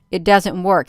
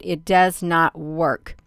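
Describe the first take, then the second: First: Said in the usual way. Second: It does not work said slowly, each word separated, weight on not; slow it down and lean on not; emphatic restatement. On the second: Retold or imitated. Streamer repeats Elon Musk's warning to viewers, slow emphatic stress on not. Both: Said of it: "he said".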